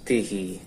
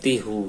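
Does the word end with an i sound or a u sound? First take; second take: i sound; u sound. First: The final vowel is an i sound. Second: The final vowel is a u sound. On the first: The speaker calls it right. "karena dia kasro ikut kasro" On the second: The speaker calls it wrong. "tidak tihu ya"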